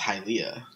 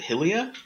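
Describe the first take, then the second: First: The vowel sounds follow the usual order. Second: The first two vowel sounds are swapped. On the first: The speaker calls it right. "I learned that all that stuff is pronounced Hylia" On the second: The speaker calls it wrong. "I always just pronounce it Hylia"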